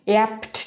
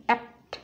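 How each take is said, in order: First: "অ্যাপ্ট" with both p and t released in puffs; wrongly aspirated cluster. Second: "অ্যাপ্ট" with the p held, no puff; unaspirated cluster. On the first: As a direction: overdo the breath on p and t in "অ্যাপ্ট". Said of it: "এরকম হবে না". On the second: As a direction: close the p straight into a light t in "অ্যাপ্ট". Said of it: "just উচ্চারণ হবে অ্যাপ্ট". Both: Shown as a demonstration.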